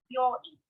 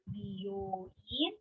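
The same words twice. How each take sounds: First: "byoin" with byo in one syllable; contracted. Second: "byoin" drawn out softly as bi-yo-in; separate syllables. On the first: Teacher repeating hospital for learners, "byoin" contracted. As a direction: merge b and yo in "byoin". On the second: Teacher repeating salon for learners, "byoin" uncontracted. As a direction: keep bi and yo apart in "byoin". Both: Shown as a demonstration. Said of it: "to give you more emphasis on these words".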